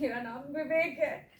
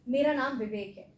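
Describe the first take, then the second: First: It is said in a happy tone. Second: It is said in a neutral tone.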